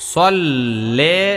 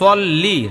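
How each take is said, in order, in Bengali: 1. শব্দটি 'eh' স্বরধ্বনি দিয়ে শেষ হয়। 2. শব্দটি 'ee' স্বরধ্বনি দিয়ে শেষ হয়।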